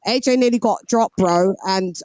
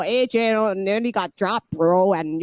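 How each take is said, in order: First: Said in the usual way. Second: Poor imitation of an American accent; mock American accent, badly done; attempted American accent. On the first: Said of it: "Sorry, I'll stop". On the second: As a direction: have a half-hearted go at an American accent. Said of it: "I can't do your accent".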